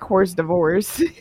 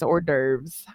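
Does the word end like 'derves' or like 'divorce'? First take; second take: divorce; derves. First: The word ends sounding like 'divorce'. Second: The word ends sounding like 'derves'.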